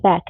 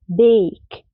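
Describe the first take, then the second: First: The vowel is a short 'a' sound. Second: The vowel is said like the letter name. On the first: The speaker calls it wrong. "ما بقولش ايه ما بقولش باك" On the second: The speaker calls it right. "بنطق الحرف ده باسمه مش بالساوند"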